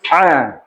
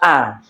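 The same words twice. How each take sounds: First: The vowel starts with a deep throat sound. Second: The vowel starts plainly, without a throat sound. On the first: The speaker calls it right. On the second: The speaker calls it wrong. "ini adalah kesalahan pertama yang terjadi pada huruf ain. Dibaca"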